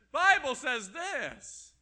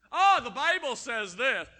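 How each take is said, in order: First: Drawn out, slow, loud mock repeat. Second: Louder mock whine of a scripture-twister; mocking quote. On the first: Preacher repeats the excuse slowly, stretched loud mockery. Mocking someone misusing scripture. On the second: Preacher parodies a scripture-twister, loud mocking voice. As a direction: parody someone using the Bible as an excuse.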